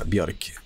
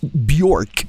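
First: The name is said the Swedish way. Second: The name is said the American way.

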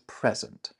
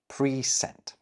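First: The stress is on the first syllable. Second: Both syllables get equal stress, with a long first vowel. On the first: It is a noun meaning a gift. "a gift" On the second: It means sent beforehand. "we're giving equal weight to both syllables"

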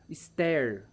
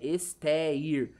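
First: The sounds are run quickly together. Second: The sounds are said slowly and kept apart. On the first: The speaker calls it right. "Você aglutina" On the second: The speaker calls it wrong. "Só que o E-ir você não fala tão devagar"

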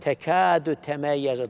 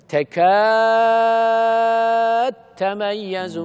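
First: The d is kept with a vowel after it. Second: The d merges into the following t.

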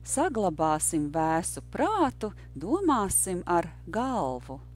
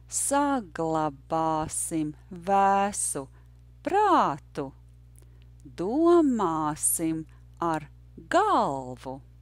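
First: It is said at a natural native pace. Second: It is said slowly and carefully.

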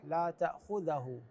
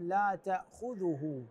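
First: The dh sound is followed by an 'a' vowel. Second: The dh sound is followed by a 'u' vowel. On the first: The speaker calls it wrong. "بعض الناس يقرؤوها بالفتح لا تأخذه، هذا مو صحيح" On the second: The speaker calls it right. "هنا الذال مضمومة"

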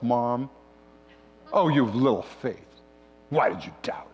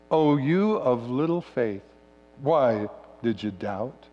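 First: It is said in a scolding, exasperated tone. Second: It is read in a calm, neutral tone.

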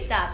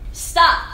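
First: It is said softly, without commanding force. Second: It is said as a firm, forceful command. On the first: No one is really being ordered. The speaker calls it wrong. "If you were not using your voice as a command" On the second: The listener is being ordered with authority. The speaker calls it right. "you're using your voice as a command"

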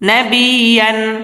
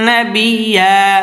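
First: The word ends with an n sound. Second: The word ends with a lengthened a vowel. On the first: The reading continues without stopping. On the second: The reading stops at this word.

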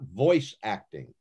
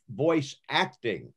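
First: The stress falls on the word voice. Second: The stress falls on the word acting. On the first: Having a good voice is what matters. The speaker calls it wrong. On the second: The performance skill is what matters. The speaker calls it right.

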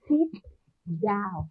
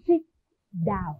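First: The phrase is said at a moderate pace. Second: The phrase is said at a quicker pace. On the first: "Đọc to nào" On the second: "Đọc lại một lần nữa, nhanh hơn"

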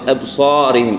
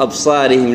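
First: The long vowel is heavy and full. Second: The long vowel is light and thin. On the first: The speaker calls it right. "لا ابصارهم" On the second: The speaker calls it wrong. "ما نقول ... او ابصارهم"

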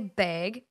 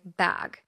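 First: The word is said with a Minnesota accent. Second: The word is said with a California accent. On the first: This is how people at home say it. "I would say bag at the grocery store" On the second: This is the adapted way people understand. "I changed my speech and now I say bag"

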